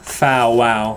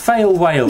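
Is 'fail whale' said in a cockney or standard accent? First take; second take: cockney; standard. First: The vowels sound like 'ow', as in 'towel'. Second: The vowels sound like 'ay', as in 'day'. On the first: "you don't say it as Taylor does in sort of foul wow" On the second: "It's not, it's fail whale"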